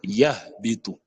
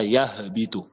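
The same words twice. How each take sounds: First: Yahbitu with a breathed H, then a clean break before bitu; correct silent-vowel H. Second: Yahbitu with a small vowel slipped in after yah; wrong released H. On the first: Teacher correcting learners, H left vowelless. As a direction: slowly say yah, close it, then bitu. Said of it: "C'est yahbitu". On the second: Teacher showing the mistake, H released. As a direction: let the H of yahbitu leak into an extra syllable. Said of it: "on dit pas yahbitu". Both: Shown as a demonstration.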